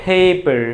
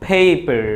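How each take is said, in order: The two takes are said the same way.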